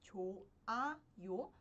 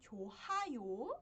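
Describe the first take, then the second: First: No h sound is heard between the syllables. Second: An h sound is heard between the syllables. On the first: The speaker calls it right. "a gente pronuncia como 좋아요, porque o hi읗 fica mudo" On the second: The speaker calls it wrong. "que nem seria se não tivesse essa exceção"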